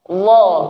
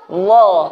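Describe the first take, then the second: First: It starts with a soft, non-hissing dh sound. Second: It starts with a soft, non-hissing dh sound.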